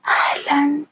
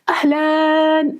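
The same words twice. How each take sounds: First: It is said in a quiet voice. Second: It is said in a loud voice.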